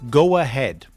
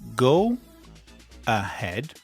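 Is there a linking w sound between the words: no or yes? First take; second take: yes; no. First: The two words are joined by a linking w. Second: The two words are said separately, without a linking w. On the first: "Together, naturally, when we speak naturally, we would say" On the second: "So the two words are"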